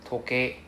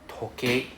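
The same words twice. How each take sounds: The two takes are said the same way.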